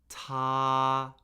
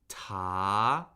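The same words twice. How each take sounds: First: The pitch stays high and level. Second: The pitch rises steadily from mid. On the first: "the first tone, high, flat, and unchanging" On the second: "Second tone is the rising tone"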